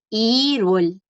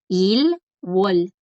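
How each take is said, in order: First: The two syllables run together as one word. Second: The two syllables are said separately with a break. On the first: It sounds natural, like a native speaker. The speaker calls it right. "Los coreanos tienden a hablar más rápido y continuar el sonido" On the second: It is very clear but sounds foreign. The speaker calls it wrong. "se entiende muy claro... pero se escucha como un extranjero"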